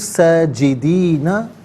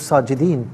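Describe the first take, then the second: First: The word ends with a short a vowel. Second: The word ends on n without a vowel. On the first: The recitation continues without stopping. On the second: The recitation stops at this word.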